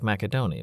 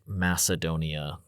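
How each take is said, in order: First: The 'c' is said as a 'k' sound. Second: The 'c' is said as an 's' sound. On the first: This is how the ancients would have said it. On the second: This is the modern form of the name.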